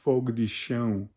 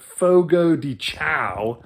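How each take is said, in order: First: The name is said with a Portuguese pronunciation. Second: The name is said with an American pronunciation. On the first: The speaker calls it right. "The way you're really supposed to pronounce it" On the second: The speaker calls it wrong. "as the Americans call it"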